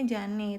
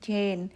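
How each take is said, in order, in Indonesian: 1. Nama itu dibaca dengan bunyi huruf Indonesia. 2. Nama itu diucapkan dengan bunyi Inggris. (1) "Kalau di Indonesia mungkin kita nyebutnya Jane" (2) "kalau orang bule sana nyebutin nama Jane itu bukan Jane teman-teman, tapi mereka tuh bacanya tuh Jane"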